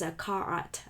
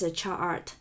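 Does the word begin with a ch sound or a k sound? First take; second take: k sound; ch sound. First: The word begins with a k sound. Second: The word begins with a ch sound. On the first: Some other people say it this way. "Some people probably pronounce" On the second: This is the speaker's usual pronunciation. "I always pronounce"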